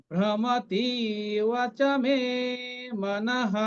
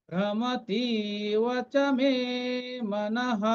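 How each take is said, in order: No difference in how they are said.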